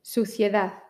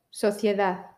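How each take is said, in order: First: Suciedad with a closed u; Suciedad, u then i then e then a; U vowel. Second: Sociedad with a rounded o; Sociedad, o then i then e then a; O vowel. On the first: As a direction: round the lips tight for the u of Suciedad. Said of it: "U I E A". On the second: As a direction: open the first vowel of Sociedad a little to o. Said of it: "O I E A". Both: Shown as a demonstration.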